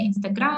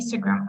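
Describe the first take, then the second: First: The stress is on the second syllable. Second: The stress is on the first syllable. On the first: The speaker calls it wrong. "не Instagram" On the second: The speaker calls it right. "It should be Instagram"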